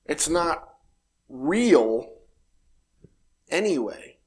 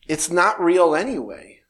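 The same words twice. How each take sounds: First: "It's not" then pause, "real" alone, pause, "anyway" falling; slow, spaced emphasis. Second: Said in the usual way. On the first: Shown as a demonstration.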